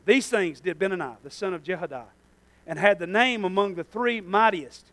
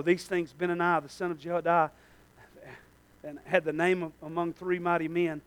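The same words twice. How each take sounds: First: Measured, careful verse reading; slower reading. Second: Said in the usual way. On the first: Real, not acted. Preacher rereading the verse to the congregation, slower. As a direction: read it out more deliberately. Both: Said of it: "I'm gonna read that slower".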